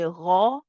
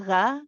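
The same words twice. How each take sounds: First: The consonant is pronounced heavy and full. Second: The consonant is pronounced light and thin. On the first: The speaker calls it right. "the ghain is a letter which is heavy" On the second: The speaker calls it wrong. "we don't say ra"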